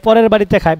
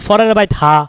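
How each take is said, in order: First: It is said in standard Bengali pronunciation. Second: It is said in a regional dialect pronunciation.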